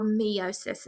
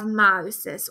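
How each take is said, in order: First: Meiosis with a first syllable like "mee"; alternative pronunciation. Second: Said in the usual way. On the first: Shown as a demonstration. Teacher giving students the variant some people use, meiosis said mee-OH-sis. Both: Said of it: "as some people pronounce it".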